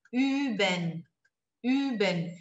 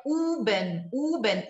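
First: Üben with tongue resting down behind the teeth, lips rounded; üben correto; correct ü. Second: Uben said with a back u, tongue pulled up; wrong u sound. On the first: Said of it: "o certo é". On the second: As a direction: mispronounce Üben as uben with plain u. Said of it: "Se você fosse falar com U". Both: Shown as a demonstration.

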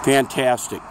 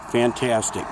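No difference in how they are said.

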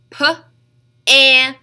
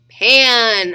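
First: "P-A-N" as puh, short a, nnn; sounded out. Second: Said in the usual way. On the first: Shown as a demonstration. Teacher tapping out a word for children, sounded out. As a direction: split "P-A-N" into separate sounds with pauses. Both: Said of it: "three different sounds".

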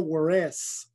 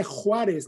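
First: "Juárez" as slow American wah-RESS; anglicized pronunciation. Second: Said in the usual way. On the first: Shown as a demonstration. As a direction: say "Juárez" with w and English r. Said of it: "no Juárez". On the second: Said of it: "Se dice Juárez".

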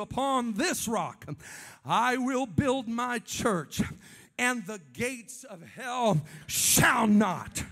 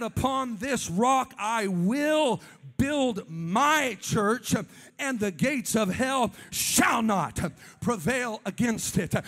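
First: Each word laid down slowly; slow emphatic scripture. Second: Very slow, weighty delivery that swells into a shout; drawn-out emphatic scripture. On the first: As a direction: read the verse like a vow. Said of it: "he said of the church". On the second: Preacher quoting Jesus to the church, slow swelling shout. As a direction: stretch every word, then cry out prevail. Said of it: "He said". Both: Retold or imitated.

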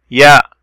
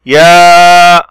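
First: Said in the usual way. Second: "يا" with the aa held long, louder; long vowel. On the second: Shown as a demonstration. Teacher showing madd, drawn-out "يا". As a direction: sustain the aa of "يا" on a level note. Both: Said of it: "مد، صوت طويل".

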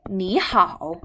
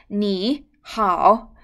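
First: 你好 short, first syllable rising as second tone; short, changed tone. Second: 你好 too long, both syllables dipping fully; two full third tones. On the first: Teacher shows the tone-change rule, short second tone on 你. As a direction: say 你好 compactly, 你 rising into a dipping 好. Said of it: "short, okay?". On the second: Teacher shows the greeting without tone change, too long. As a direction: drag 你好 out slowly, each syllable a separate third tone. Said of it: "too long". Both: Shown as a demonstration.

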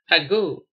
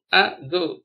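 First: Said in the usual way. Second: "ago" split as a, go; slight gap inside "ago" after the a; syllable by syllable. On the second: Shown as a demonstration. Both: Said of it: "spell the word".

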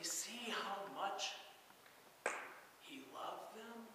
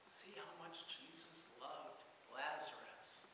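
First: Said in the usual way. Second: Whispered in awe, the voice almost gone; soft awed whisper, no voice behind it; hushed whisper. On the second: Acted. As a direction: breathe it like a marvelling onlooker. Crowd remarks on Jesus' love.

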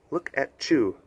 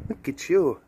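First: "Chew" said with a ch sound in place of "you"; T-Y run together as "ch". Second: Said in the usual way. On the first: Shown as a demonstration. Singer defaulting to that chew thing, "Chew" with a ch sound. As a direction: blur the t into "you" so it becomes "Chew". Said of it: "that chew thing". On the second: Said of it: "easy to default, default to that, you know, that chew thing".

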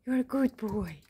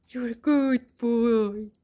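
First: Said in the usual way. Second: Slow praise. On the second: Real, not acted. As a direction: stretch every word out. Praising the dog, drawn out.

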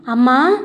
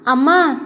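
First: Put-on a toddler's happy cry of అమ్మా, louder, pitch rising at the end; excited shout. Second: A second happy cry of అమ్మా, louder, falling at the end; excited shout. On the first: Toddler hugging his new mother, calling అమ్మా with a rising happy cry. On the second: Toddler clinging to his new mother, calling అమ్మా with a falling happy cry. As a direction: call అమ్మా again joyfully, letting it fall. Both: A narrator's reading. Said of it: "ఉత్సాహంగా అరుస్తూ".

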